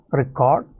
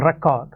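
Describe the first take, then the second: First: Record stressed on the second syllable, re-CORD; verb stress on Record. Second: Record stressed on the first syllable, REC-ord; noun stress on record. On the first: English teacher showing the verb form, Record stressed on the last syllable. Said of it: "which is the verb". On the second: English teacher showing the noun form, record stressed on the first syllable. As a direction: say record as a noun, strong REC, weak ending. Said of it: "which is the noun". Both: Shown as a demonstration.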